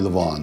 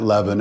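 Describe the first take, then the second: First: The last syllable has an open 'o' vowel. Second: The last syllable has a short 'i' vowel. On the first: The speaker calls it right. "it's really Levon" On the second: The speaker calls it wrong. "I've been saying it Levin"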